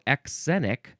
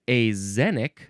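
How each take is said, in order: First: The x is sounded as ks. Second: The x is sounded as z. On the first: The speaker calls it wrong. "now that is not how you were supposed to pronounce it" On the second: The speaker calls it right. "sometimes the X sound is a Z sound"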